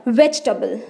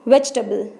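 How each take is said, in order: Both takes have the same delivery.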